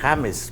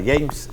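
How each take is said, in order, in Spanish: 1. El nombre empieza con un sonido parecido a la h del español. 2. El nombre empieza con un sonido j del inglés. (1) "él se llama James, porque así se escribe" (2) "él no se llamaba James"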